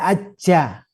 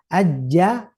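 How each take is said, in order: First: The j is breathy, made with the front tongue. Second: The j is clean, made with the mid tongue. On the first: The speaker calls it wrong. "Hati-hati jangan menggunakan punggung depannya. Ya, kemungkinan jadi hembus nanti" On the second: The speaker calls it right. "ajja tidak aja"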